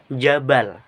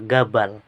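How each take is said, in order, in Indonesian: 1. Kata itu diawali dengan bunyi j. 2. Kata itu diawali dengan bunyi g keras. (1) "Bunyi jim di fusha dilafalkan eh, jim atau j" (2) "dalam dialek Mesir diucapkan al-ghim atau menggunakan g"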